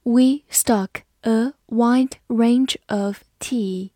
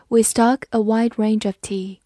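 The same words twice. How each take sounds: First: Slowly, one word at a time; deliberate word-by-word teacher reading. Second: Said in the usual way. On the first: Shown as a demonstration. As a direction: leave a gap after each word for learners. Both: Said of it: "好，慢慢来读".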